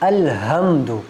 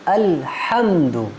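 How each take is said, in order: First: The h is a light breathy chest sound. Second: The h is a tense sound from the throat. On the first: The speaker calls it wrong. "ये गलत है" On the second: The speaker calls it right. "सही क्या है? अल्हम्दु हा के साथ"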